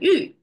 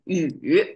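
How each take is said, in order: First: The syllable is said with a different tone. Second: The syllable is said with the third tone. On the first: It means a region of land. "it sounds the same, just different tone" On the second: It names the ancient leader. "the third tone is this leader"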